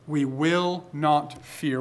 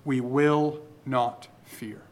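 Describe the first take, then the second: First: "We will not fear" again, slow, soft, stress on "will"; slow soft repeat. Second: "we will not fear" slow, soft, stress on "will"; slow down and press on "will"; slow soft emphasis. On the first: Preacher quietly repeats "We will not fear", stressing "will". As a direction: repeat it slowly, pressing "will". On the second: Preacher quietly stresses "will" in "we will not fear". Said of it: "he says, Therefore". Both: Shown as a demonstration.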